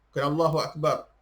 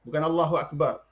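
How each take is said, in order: The two takes are said the same way.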